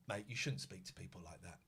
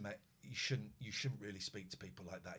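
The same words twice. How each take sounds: First: Much softer, low, measured; quiet calm telling-off. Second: Much softer, low, steady; quiet calm repeat. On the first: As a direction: keep it calm, defuse him. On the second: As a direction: stay level so he calms down. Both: Retold or imitated. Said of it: "I kept very calm".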